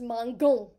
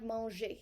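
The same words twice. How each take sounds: First: "mangon" with a hard g, as in "go"; hard g mispronunciation. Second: "manger" said the French way, mahn-zhay; soft g. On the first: Teacher shows the faulty sound without an E, hard g in "mangon". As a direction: say "mangon" as mahn-GON, hard g punched. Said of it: "it is now pronounced mangon". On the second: Teacher contrasts it with the proper verb, soft g in "manger". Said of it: "that doesn't sound like manger". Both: Shown as a demonstration.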